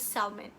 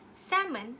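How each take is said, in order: First: It is said as each letter suggests. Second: It is said the standard English way.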